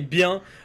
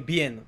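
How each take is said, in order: First: It is said with a French-sounding vowel. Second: It is said with a Spanish-sounding vowel. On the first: The speaker calls it right. "just say bien" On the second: The speaker calls it wrong. "people usually say bien"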